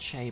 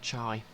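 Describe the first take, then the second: First: The vowel sounds like the one in 'day'. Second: The vowel sounds like the one in 'eye'. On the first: The speaker calls it right. "I know her name's pronounced Che" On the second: The speaker calls it wrong. "but I keep pronouncing it Chai"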